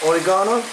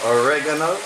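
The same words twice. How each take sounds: First: It is said in a British way. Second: It is said in an American way.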